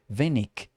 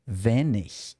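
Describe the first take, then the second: First: The word ends with a hard 'k' sound. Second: The word ends with a soft 'ch' sound.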